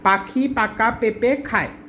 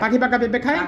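First: The phrase is spoken slowly. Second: The phrase is spoken quickly. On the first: "প্রথমে ধীরে বলবো" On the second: "তারপরে speed আস্তে আস্তে বাড়াবো"

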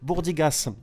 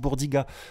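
First: The final S is pronounced. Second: The final S is silent. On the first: The speaker calls it right. "attention on prononce le S" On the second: The speaker calls it wrong. "tu vas passer pour un con si tu dis bourdiga"

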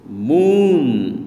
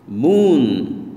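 No difference in how they are said.

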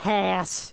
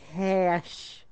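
First: The word is said with a harsh throaty rasp. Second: The word is said with a lisp. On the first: "It's like hacking up a freaking lung" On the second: "that's with a lisp"

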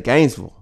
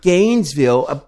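First: It is said the local Georgia way. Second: It is said in a non-local way. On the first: This is how people from the town say it. "people from Gainesville say Gainesville" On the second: This is how an outsider says the name. "you said Gainesville"

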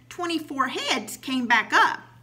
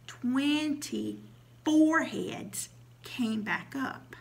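First: It is said at a normal pace. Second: It is said even more slowly.

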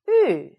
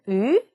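First: The pitch falls sharply and quickly. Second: The pitch rises like a question. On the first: "사성" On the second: "이성"

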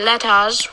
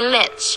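First: The word 'us' is said in full with its vowel. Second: The word 'us' is reduced to a single s sound. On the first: The speaker calls it wrong. "We don't say let us" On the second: The speaker calls it right. "we say let's"

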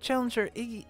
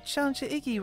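First: It is said in a lower voice. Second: It is said in a higher voice.

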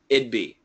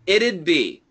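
First: The phrase is said fast with the sounds reduced. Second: The phrase is said carefully with a clear contraction. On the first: "if we say it really fast, it actually sounds like" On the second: "the perfect pronunciation here is it would, and the contraction, it'd"

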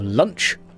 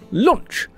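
First: The vowel sounds like a short 'uh'. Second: The vowel sounds like a rounded 'oh'. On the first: The speaker calls it wrong. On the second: The speaker calls it right.

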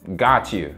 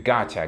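First: Both words are said clearly and separately. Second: The words are blended quickly into gotcha.

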